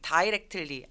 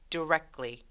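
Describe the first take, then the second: First: The first syllable sounds like 'die'. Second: The first syllable has a short 'di' sound. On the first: The speaker calls it wrong. "directly 안 되고" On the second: The speaker calls it right. "die라고 읽지 않고요"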